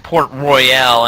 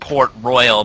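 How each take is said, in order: First: The final 'al' sound is rolled and drawn out. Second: The final 'al' sound is short and plain. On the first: The speaker calls it right. "it's Port Royale" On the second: The speaker calls it wrong. "and not Port Royal"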